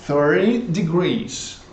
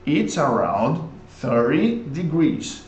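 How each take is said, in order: First: Slow model. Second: Slow repeat. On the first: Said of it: "model sentence". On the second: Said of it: "model sentence repeated". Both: Shown as a demonstration.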